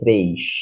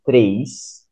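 First: The final s sounds like sh, Rio style. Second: The final s sounds like a plain s.

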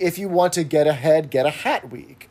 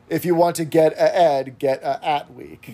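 First: It is said in a standard accent, h sounds kept. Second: It is said in a Cockney accent, h sounds dropped.

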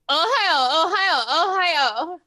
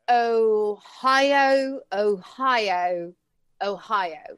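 First: It is said in an exaggerated put-on voice. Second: It is said in a normal voice.

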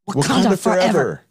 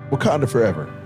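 First: It is said with more intensity. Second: It is said with less intensity. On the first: The speaker calls it right. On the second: The speaker calls it wrong.

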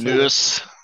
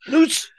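First: The word is said in a calm, plain way. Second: The word is said in an angry way.

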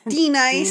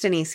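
First: The second syllable sounds like 'nice'. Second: The second syllable sounds like 'neese'. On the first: The speaker calls it wrong. "chose to butcher it anyways" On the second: The speaker calls it right. "we said it right"

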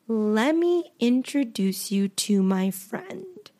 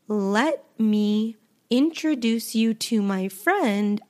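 First: Let and me are glued into lemme. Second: Let and me are said as two full words. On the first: "I could say, lemme" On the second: "instead of saying"

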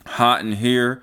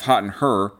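First: The last word is said the standard way. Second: The last word is said country-style, like 'her'. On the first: The speaker calls it wrong. "I said it wrong" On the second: The speaker calls it right. "it's Hot in Her"

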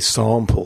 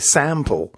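First: It is said in a British accent. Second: It is said in an American accent. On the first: "we say sample" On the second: "Americans say sample"

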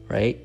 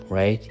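Both takes have the same delivery.

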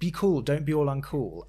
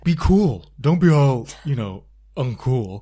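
First: It is said in the speaker's own voice. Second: It is said in a put-on voice imitating her.

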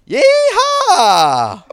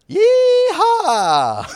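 First: It is said loudly. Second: It is said fairly quietly.

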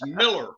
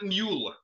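First: The first syllable sounds like 'mill'. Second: The first syllable sounds like 'mule'. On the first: The speaker calls it right. "It's Miller" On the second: The speaker calls it wrong. "Not Mueller"

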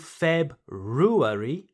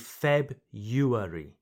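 First: The first r sound is pronounced. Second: The first r sound is left out. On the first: "So you don't say February" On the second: "you say February"

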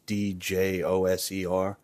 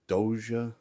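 First: The name has an 's' or 'z' sound. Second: The name has no 's' or 'z' sound. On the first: The speaker calls it right. "It was Djoser" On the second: The speaker calls it wrong. "I'm definitely pronouncing it wrong"

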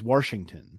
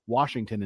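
First: An R sound is inserted after the first vowel. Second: No R sound follows the first vowel. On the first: This is the local dialect form from childhood. The speaker calls it wrong. "I always threw an R in there" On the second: This is the standard form that had to be learned. The speaker calls it right. "exclude an R that is actually not there"

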